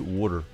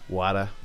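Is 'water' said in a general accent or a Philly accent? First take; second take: Philly; general. First: It is said with a Philadelphia accent. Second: It is said without a Philadelphia accent.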